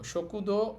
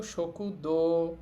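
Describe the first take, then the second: First: Said in the usual way. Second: দো stretched into a long o; drawn-out vowel. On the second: Shown as a demonstration. Teacher showing how to say canteen, দো drawn out. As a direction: hold the vowel of দো well past normal. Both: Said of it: "একটু টেনে বলবো".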